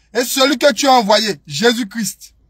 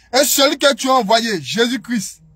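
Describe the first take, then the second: No difference in how they are said.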